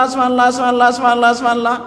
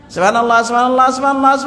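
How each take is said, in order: No difference in how they are said.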